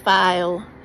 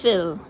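First: The name rhymes with the word mile. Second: The name rhymes with the word pill. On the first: The speaker calls it wrong. "Or some people say file" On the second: The speaker calls it right. "but it's Phil"

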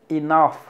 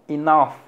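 The two takes are said the same way.

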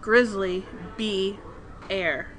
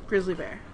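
First: The name is said slowly, in separate parts. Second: The name is said quickly, run together. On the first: "it's called grizzly bee. Air" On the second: "so when you say it fast"

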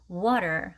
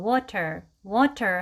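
First: The middle consonant is a quick flap sound. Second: The middle consonant is a clear t sound. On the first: The speaker calls it right. "flap t 버터 발음이라고 하는 t를 t 발음하지 않고 r 하는 발음으로 하는 water" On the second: The speaker calls it wrong. "water 하지 않고"

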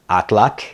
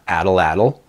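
First: The final tl is said as one clipped sound. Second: The final tl is said as a separate syllable. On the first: The speaker calls it right. "Another one that we did previously is" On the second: The speaker calls it wrong.

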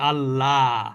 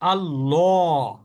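First: The L is thin and light, like 'la'. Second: The L is thick and heavy, like 'law'. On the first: "আমরা যেভাবে বাংলায় উচ্চারণ করি" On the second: "কখনো ল"

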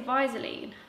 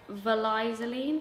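First: The word is said without the extra L sound. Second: The word is said with an extra L sound. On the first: The speaker calls it wrong. "I say Vlieseline" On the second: The speaker calls it right. "I think it's Vlieseline because it's got an extra L"

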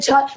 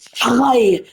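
First: It is said with a plain Turkish accent. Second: It is said with a throaty foreign accent. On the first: The speaker calls it wrong. "çay değil" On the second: The speaker calls it right. "Bak şöyle diyeceksin. ... Biraz Fransız şivesi de olabilir"

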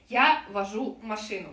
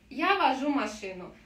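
First: Each word is said separately, not linked. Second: The words are linked smoothly into one flow. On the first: The speaker calls it wrong. "когда мы не говорим" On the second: The speaker calls it right. "мы соединили все слова"

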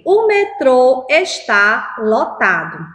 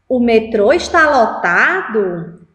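First: The pitch falls at the end. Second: The pitch rises at the end. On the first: It states a fact. "Eu estou afirmando" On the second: It asks a question. "Agora eu vou transformar em uma pergunta"

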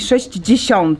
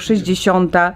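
First: The consonant cluster is pronounced in full. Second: The consonant cluster is simplified with a light j. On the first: This is a hypercorrect pronunciation. The speaker calls it wrong. "To jest hiperpoprawność, jak się tak mówi" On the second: This is the natural everyday pronunciation. The speaker calls it right. "uproszczenie tej grupy spółgłoskowej w brzmieniu 60"

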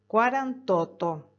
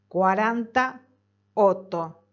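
First: The final vowel of quaranta is dropped. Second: The final vowel of quaranta is kept. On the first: The speaker calls it right. "es cuarantoto" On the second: The speaker calls it wrong. "No es cuarenta otto"

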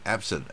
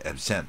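First: The stress is on the first syllable. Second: The stress is on the second syllable. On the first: It is used as a noun or adjective. "如果absent 一听就名词" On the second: It is used as a verb. "那它动词就有第二个音节absent"

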